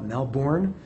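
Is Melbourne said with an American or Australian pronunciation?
American. It is said with an American-style pronunciation. "as some Americans or Westerners would call it"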